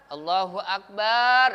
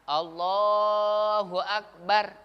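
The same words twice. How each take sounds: First: The vowel in 'bar' is drawn out long. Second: The vowel in 'Allah' is drawn out long. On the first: It changes the meaning to 'God is a great drum'. The speaker calls it wrong. "baknya dipanjangin ya Pak ya" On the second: It means 'God is the greatest'. The speaker calls it right. "Yang panjang itu alifnya, lamnya"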